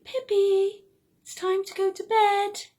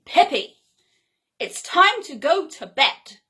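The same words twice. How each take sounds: First: Higher, sweet coaxing bedtime reminder; friendly. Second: Louder, stern self-scolding; sharply. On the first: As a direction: gently tell yourself it's bedtime, higher. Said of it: "in a really friendly way". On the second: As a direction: snap the order at yourself, louder. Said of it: "speak to myself quite sharply". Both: Pretend.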